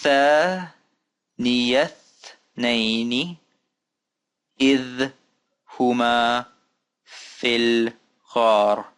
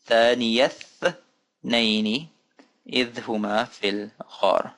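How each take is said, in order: First: Long held syllables with pauses between; slow careful recitation. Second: Careful reading, words joined up; more fluent recitation. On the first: Teacher reading another example for learners, slow and spaced. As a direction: read it out very slowly, word by word. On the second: Teacher repeating the example for learners, careful and flowing. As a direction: recite it in two measured phrases. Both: Shown as a demonstration.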